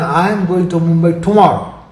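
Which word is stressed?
tomorrow. The word "tomorrow" carries the stress. No other day is meant. "rules out the day after tomorrow or any other following day"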